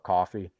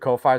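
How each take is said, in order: First: It is said like the word coffee. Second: It is said unlike the word coffee. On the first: This is how some other people say it. "Some people call it coffee" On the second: This is the speaker's own pronunciation. "I I pronounce it Ko-Fi"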